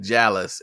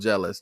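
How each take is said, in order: First: The word is pronounced in an unusual way. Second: The word is pronounced in the normal way. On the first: "That boy said jealous instead of" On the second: "instead of jealous"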